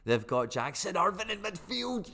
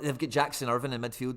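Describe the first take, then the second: First: Higher, slower, savouring each word; excited. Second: Said in the usual way. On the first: Real, not acted. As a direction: gloat over the name. Repeats it, thrilled.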